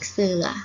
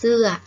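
First: The syllable is said with a rising tone. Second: The syllable is said with a falling tone. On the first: "สอเอือเสือ" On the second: "เสือโท"

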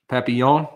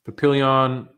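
First: The name is said with a less American accent. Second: The name is said with a strong American accent. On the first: The speaker calls it right. "Sound a little better there" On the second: The speaker calls it wrong. "I said that in a very American accent"

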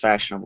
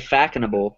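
First: The middle consonant is a soft sh sound. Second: The middle consonant is a hard k sound. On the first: The speaker calls it right. "I think it's pronounced fashionable" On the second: The speaker calls it wrong. "I say fackinable"

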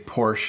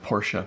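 First: It uses the common North American pronunciation. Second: It uses the pronunciation common in most countries. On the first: "we say Porsche" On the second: "instead of Porsche"

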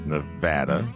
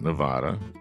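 First: It uses the pronunciation locals use. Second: It uses a pronunciation locals dislike. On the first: This is how people there say it. The speaker calls it right. "and it's Nevada" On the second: People there dislike hearing it. The speaker calls it wrong. "not Nevada. They hate it when you say Nevada there"

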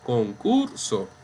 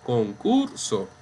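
First: The stress is on the middle syllable. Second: The same.

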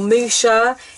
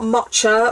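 First: The middle consonant is a sh sound. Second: The middle consonant is a ch sound. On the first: "or musha" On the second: "It's not matcha"

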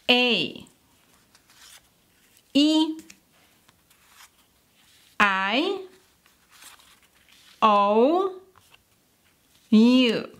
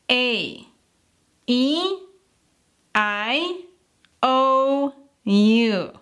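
First: The vowels are said at normal speed. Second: The vowels are said faster.

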